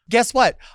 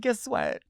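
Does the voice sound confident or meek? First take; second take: confident; meek. First: It is said boldly and confidently. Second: It is said timidly and nervously. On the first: The speaker proudly announces the news. The speaker calls it right. "That's perfect. Say it with your chest" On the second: The speaker is unsure about sharing the news. The speaker calls it wrong. "Stop being meek"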